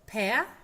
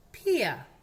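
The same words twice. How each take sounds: First: "Pea" said as pe-a, loud; "ea" diphthong drill. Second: "Pia" said as pi-a, loud; "ia" diphthong drill. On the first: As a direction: model "Pea" with e gliding into schwa. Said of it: "que son el E A". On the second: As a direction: model "Pia" with i gliding into schwa. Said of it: "y el I A". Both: Shown as a demonstration.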